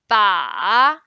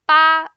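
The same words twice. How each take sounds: First: The pitch dips low, then rises. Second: The pitch stays high and level. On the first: It means the target. "the third one" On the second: It means the number eight. "the first one"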